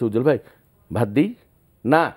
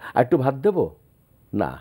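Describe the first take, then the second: First: It sounds like an angry, curt refusal. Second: It sounds like a gentle, asking request. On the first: The speaker refuses to serve rice after a quarrel. "তোমার সাথে আমার রাগারাগি" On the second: The speaker wants a little more rice. "আমি ভাত খেতে বসছি"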